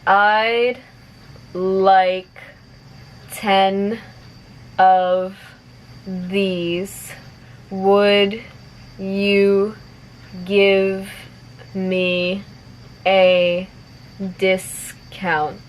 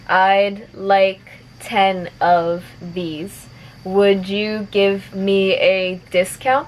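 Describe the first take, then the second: First: The sentence is spoken slowly. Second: The sentence is spoken at moderate speed. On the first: "I'll say it slowly first" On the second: "a little bit faster"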